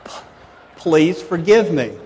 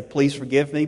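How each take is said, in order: First: Sincere plea. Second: Said in the usual way. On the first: Shown as a demonstration. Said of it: "I just said". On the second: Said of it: "I didn't add in qualifications. I didn't say".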